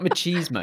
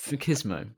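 First: The middle syllable sounds like cheese. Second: The middle syllable does not sound like cheese. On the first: The speaker calls it wrong. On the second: The speaker calls it right.

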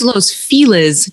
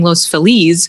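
First: The name is said with an English-style pronunciation. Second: The name is said with a Spanish-style pronunciation. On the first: This is how locals say it. "It's Los Feliz to people who live here" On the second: This is how it is said in taught Spanish. "this is how I was taught Spanish"

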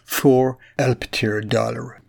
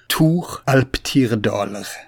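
First: The name has an English pronunciation. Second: The name has a Scandinavian pronunciation.

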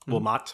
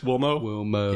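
First: The final T sound is pronounced. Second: The final T sound is left silent.

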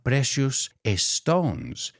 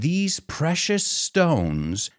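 First: The two S sounds are said separately. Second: The two S sounds are joined into one. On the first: The speaker calls it wrong. "not precious stones" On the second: The speaker calls it right. "I put the S from precious with the S from stones"

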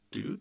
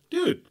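First: It is said in a scared tone. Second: It is said as a friendly greeting.

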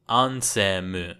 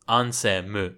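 The two takes are said the same way.

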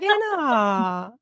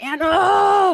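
First: It is said in an affectionate voice. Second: It is said in an angry voice.

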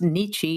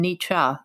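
First: The name is said with an American English pronunciation. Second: The name is said with a German pronunciation. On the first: "in American English pronunciation" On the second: "in the German"

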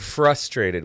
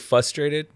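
First: The R after the F is clearly pronounced. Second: The R after the F is left out. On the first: The speaker calls it right. "Is that better?" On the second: The speaker calls it wrong. "What did I say?"

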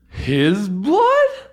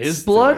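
First: The voice rises at the end, like a question. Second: The voice stays flat at the end.

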